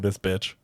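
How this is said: It is said in a serious, cutting tone.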